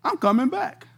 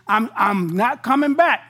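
First: Surprised to hear himself agree, chuckling; laughing surprise. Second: Said in the usual way. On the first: Retold or imitated. Preacher laughing as his mouth says he'll return. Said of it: "Came out of my mouth". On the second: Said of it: "My body said".

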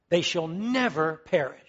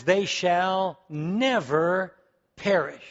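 First: Said in the usual way. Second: They shall never perish, each word drawn out very slowly; slow, deliberate scripture reading with weight on "never"; slow emphatic reading. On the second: Shown as a demonstration. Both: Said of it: "the next few words says".

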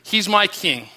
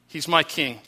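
First: Said in the usual way. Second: Softer echo. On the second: Pretend. Congregation repeating their devotion, softly. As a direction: drop it softer, an intimate echo. Worshippers declare Christ their king.

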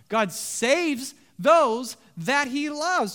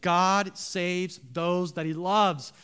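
First: "God saves those that he loves" slow and loud, each phrase punched high; emphatic repeat. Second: Said in the usual way. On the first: Real, not acted. Preacher urging the church to remember, every key word of "God saves those that he loves" hit hard.

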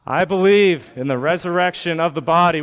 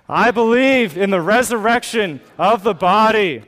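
First: Said in the usual way. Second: Higher, louder bold declaration; really mean it. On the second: Shown as a demonstration. Pastor leading congregation's creed, louder and fervent. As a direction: proclaim "believe" with full conviction. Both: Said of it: "One more time like you really mean it".

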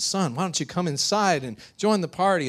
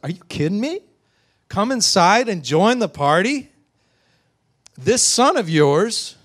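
First: Raised, gently coaxing invitation; inviting father. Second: High, loud incredulous outrage; furious. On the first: Father inviting his older son inside, coaxing. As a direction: coax him in kindly. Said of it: "his father comes from outside the party". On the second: Older son answering his father's invitation, furious. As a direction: throw the invitation back in disbelief. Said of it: "And now he's furious". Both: Acted.

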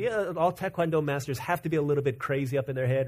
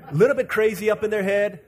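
First: Said in the usual way. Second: Louder, higher, punching "little"; loud emphatic repetition with "little" stressed; emphatic repeat. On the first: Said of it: "repeats it with force". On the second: Shown as a demonstration. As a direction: hammer the phrase home for the crowd. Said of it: "repeated with emphasis".

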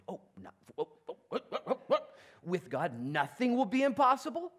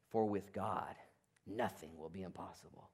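First: Rising, climbing to a laughing question; astonished disbelief. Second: Low, soft, falling solemn; hushed promise. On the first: Acted. Mary grasping the angel's words, astonished and rising. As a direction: stammer then burst into wonder. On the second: Retold or imitated. Angel assuring Mary, hushed and solemn. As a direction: lay it down gently like a promise.

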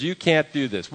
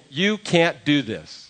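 First: "can't" pressed in "You can't do this."; stress on can't. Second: "You can't do this." slowly, YOU leaned on; slow refusal. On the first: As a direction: nadruk op "can't". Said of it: "everybody in the room says". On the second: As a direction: nadruk op "You". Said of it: "Everybody is saying". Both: Retold or imitated.

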